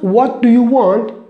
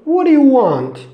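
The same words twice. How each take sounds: First: Every sound, including the T, is pronounced fully. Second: The T is dropped and the words run together. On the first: The speaker calls it wrong. "Not what do you want" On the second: The speaker calls it right. "We don't use this T"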